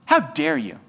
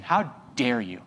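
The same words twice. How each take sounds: First: Much higher, indignant "how dare you"; mock outrage. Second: Low, slow, hushed "how dare you"; mock indignation. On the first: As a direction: fling it back like a scandalised churchgoer. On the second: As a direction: mutter it as a wounded churchgoer. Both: Mocking the offended believer.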